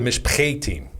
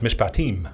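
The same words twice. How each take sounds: First: The A vowel is long and hard. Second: The A vowel is short and light.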